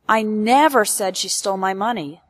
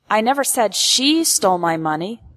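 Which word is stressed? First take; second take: never; she. First: The stress falls on the word never. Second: The stress falls on the word she. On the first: It did not happen even once. "emphasizes that this event ... never happened, not even once" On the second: This person is not the one being accused. "implies that I am not accusing"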